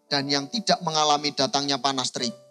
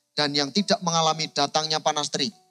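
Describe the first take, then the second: No difference in how they are said.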